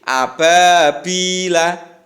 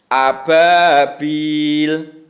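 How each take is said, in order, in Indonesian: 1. Kata itu berakhir dengan vokal terbuka. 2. Kata itu berakhir dengan konsonan, vokal akhirnya dihilangkan.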